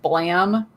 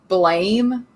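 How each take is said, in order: First: The vowel is short, like the sound blam. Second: The vowel is long, like the word blame. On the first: The speaker calls it right. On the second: The speaker calls it wrong.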